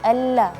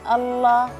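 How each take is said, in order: First: The doubled L is thin and light. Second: The doubled L is thick and heavy. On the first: The speaker calls it right. "tapi alla ya, seperti itu" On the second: The speaker calls it wrong. "lam tasydid di situ tadi, eee, terlalu tebal ... jangan Allah"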